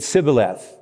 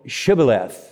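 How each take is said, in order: First: The word begins with a plain s sound. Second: The word begins with an sh sound. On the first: The speaker calls it wrong. "they couldn't pronounce the SHs, so they said Sibboleth" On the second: The speaker calls it right. "No, it, Shibboleth"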